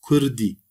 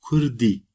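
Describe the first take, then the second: No difference in how they are said.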